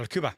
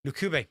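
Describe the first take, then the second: First: Lukuba, ending in an open -ba; self-correct the name to Lukuba; corrected pronunciation. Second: Lukube, ending in a clear -be; name mispronounced as Lukube; wrong pronunciation. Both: Real, not acted. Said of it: "No, Lukuba".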